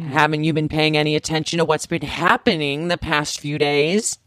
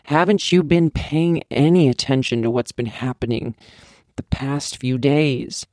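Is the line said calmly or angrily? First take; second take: angrily; calmly. First: It is yelled angrily. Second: It is said calmly, at normal volume.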